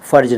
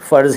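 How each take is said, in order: First: The final consonant is a 'j' sound. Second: The final consonant is a 'z' sound. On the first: It names a female body part. The speaker calls it wrong. "फ़र्ज ना कहा करें" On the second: It means duty. The speaker calls it right. "फ़र्ज़ ही कहा करें"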